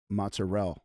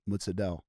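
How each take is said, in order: First: The consonant after 'mozza' is an R sound. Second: The consonant after 'mozza' is a D sound. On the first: The speaker calls it wrong. "they'll say it wrong" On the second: The speaker calls it right. "It's mozzadel with a D"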